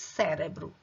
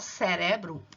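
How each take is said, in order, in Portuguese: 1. A sílaba tônica é a primeira. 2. A sílaba tônica é a segunda. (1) "Em português, cérebro. ... Enquanto em português é a primeira sílaba" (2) "E em espanhol, cerebro ... em espanhol é a segunda"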